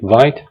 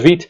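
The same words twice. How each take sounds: First: The word is said with an English-style pronunciation. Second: The word is said with a French-style pronunciation. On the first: This is how some other people say it. "Some people pronounce it Vite" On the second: This follows the word's French origin, meaning fast. "I prefer to pronounce it Vite because Vite comes from a French word"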